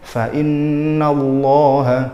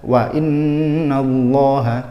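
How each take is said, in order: First: It starts with an f sound. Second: It starts with a w sound. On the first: The speaker calls it right. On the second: The speaker calls it wrong.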